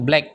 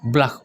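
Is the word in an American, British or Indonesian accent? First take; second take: Indonesian; American. First: The word is said in an Indonesian accent. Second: The word is said in an American accent. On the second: "kalau Amerika yang asli"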